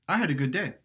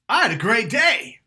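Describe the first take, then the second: First: It sounds moderate and neutral, with some push. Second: It sounds loud and excited, with strong push.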